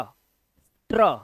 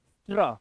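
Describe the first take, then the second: First: स्ट्र stretched slowly as one cluster; drawn-out blend. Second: Said in the usual way. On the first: Shown as a demonstration. Teacher stretching स्ट्र slowly for the class. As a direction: hold स्ट्र long so every sound is heard. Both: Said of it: "बनता है स्ट्र".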